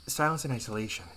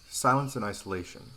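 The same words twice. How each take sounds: First: It is said imitating another woman's voice. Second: It is said in the speaker's natural voice.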